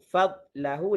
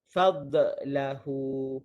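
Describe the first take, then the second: First: The consonant is soft with no bounce. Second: The consonant bounces with an echo. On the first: The speaker calls it right. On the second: The speaker calls it wrong.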